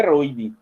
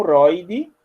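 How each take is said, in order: First: ROIDE with a closed "ô", like "rôide"; o fechado. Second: ROIDE with an open "ó"; o aberto. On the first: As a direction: say "roide" wrongly, closing the o. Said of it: "e não é roide". (roide com ô fechado) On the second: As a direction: open the vowel wide in "roide". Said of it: "saber que isso é um roide". (roide com ó aberto) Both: Shown as a demonstration.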